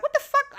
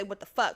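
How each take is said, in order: First: High, loud snippy outburst. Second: Said in the usual way. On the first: Retold or imitated. Student getting snippy with assistant principal, loud high outburst. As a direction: snap it high and indignant.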